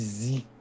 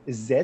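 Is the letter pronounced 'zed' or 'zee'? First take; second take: zee; zed. First: The letter is said the American way. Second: The letter is said the Canadian English way.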